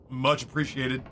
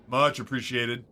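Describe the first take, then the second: No difference in how they are said.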